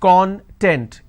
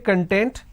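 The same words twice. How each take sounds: First: The stress is on the first syllable. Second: The stress is on the second syllable. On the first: It means ingredient or index. "When I pronounce this as con, content, it means ingredient or index" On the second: It means being happy. "this means being happy"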